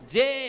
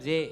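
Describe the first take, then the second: First: The vowel is held long and bright. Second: The vowel is cut short and flat. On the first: The speaker calls it right. "அது குறில் இல்ல. நெடில்" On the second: The speaker calls it wrong. "நீங்க சொல்றது ஜே. அப்படி இருக்கக்கூடாது"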